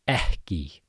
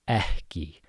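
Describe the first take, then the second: First: A breathy h-like puff comes before the k. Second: A breathy h-like puff comes before the k.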